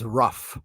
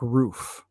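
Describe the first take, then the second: First: The vowel is short, like in rough. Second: The vowel is long, like in food. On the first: This is how a particular relative says it. "my father-in-law says rough" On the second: This is the usual way to say it. "for like roof"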